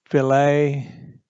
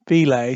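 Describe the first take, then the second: First: "philae" with a short lax first vowel, fih-lay; mispronounced. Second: "philae" with a clear ee vowel, fee-lay; corrected pronunciation. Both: Shown as a demonstration.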